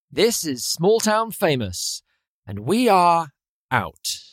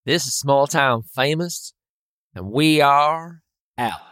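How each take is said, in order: First: Slow, drawn-out tagline in an Australian-like accent; Australian-sounding sign-off. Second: Measured radio sign-off, leaning on "we are"; sign-off take. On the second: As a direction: deliver a deliberate show tagline. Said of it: "Okay, I'll try". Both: Shown as a demonstration.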